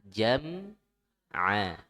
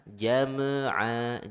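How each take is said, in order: First: Jam'a with the m held closed; Jam'a with the lips kept together on the m; Jam'a with the mim sukun held, not bounced; right jam'a. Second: Jam'a with the m bounced open; jam'a with the m released too soon, the wrong way. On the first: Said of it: "jangan langsung dilepas". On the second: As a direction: say jam'a with the lips popping off the m. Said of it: "jangan jam'". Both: Shown as a demonstration.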